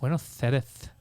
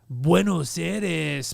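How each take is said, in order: First: It is said in a lisping Spain Spanish accent. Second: It is said in a Mexican Spanish accent. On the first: "if you have the Spanish, like" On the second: "But the Mexican's good. They're like"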